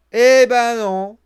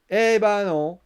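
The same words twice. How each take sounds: First: "Eh ben non" much louder and slow, every word stretched; drawn-out emphatic no. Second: "Eh ben non" said firmly, a little louder; emphatic no. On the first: Vlogger repeating his verdict, loud slow emphatic no. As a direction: hammer the denial home. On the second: Vlogger answering his own expectation, firm emphatic no. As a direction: deny it flatly. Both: Real, not acted.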